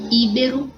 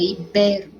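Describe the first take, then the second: First: "íbero" stressed on the opening í. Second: "ibero" correctly stressed on the middle, i-BE-ro. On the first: Teacher giving the hypothetical wrong form, "íbero" stressed on í. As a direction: punch the first vowel of "íbero". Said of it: "teria acento no i". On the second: Teacher correcting the word for pupils, "ibero" stressed on be. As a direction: stretch be in "ibero". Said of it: "é ibero". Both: Shown as a demonstration.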